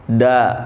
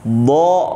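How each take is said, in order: First: The vowel sounds like a. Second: The vowel sounds like o. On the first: The speaker calls it wrong. "Bukan Kha, Sa, Da" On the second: The speaker calls it right. "Semuanya O"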